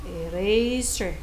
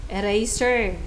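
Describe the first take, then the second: No difference in how they are said.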